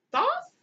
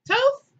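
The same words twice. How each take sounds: First: "Thoth" as a high, rising question; unsure, high-pitched "Thoth?"; questioning pronunciation. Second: "Toth" high and loud, as a question; loud, high, doubtful "Toth?"; second-guess pronunciation. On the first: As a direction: try out "Thoth" with a short vowel, pitched way up. Trying out the god's name. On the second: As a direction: try out "Toth" louder, pitched way up. Second try at the name. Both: Real, not acted.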